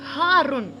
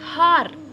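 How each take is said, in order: First: The word ends with an added '-un' ending. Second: The word ends without an '-un' ending. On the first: This is the full formal form. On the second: This is the everyday spoken form.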